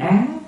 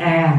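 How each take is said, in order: First: The syllable is said on a rising tone. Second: The syllable is said on a level tone. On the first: The speaker calls it wrong. "lên giọng xuống giọng sao thành chữ Á" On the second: The speaker calls it right. "chữ A"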